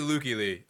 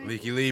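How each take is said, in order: First: The name is said with a Swedish 'oo' vowel. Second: The name is said with an English 'ee' vowel. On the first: This is the original native pronunciation. "that's the Swedish pronunciation" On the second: This is how most people say it. "everyone calls it Leaky Lee"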